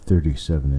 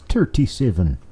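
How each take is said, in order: First: It is said in the speaker's ordinary accent. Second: It is said in a put-on Irish accent. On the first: "it's not thirty-seven" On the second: "It's the Irish way of saying"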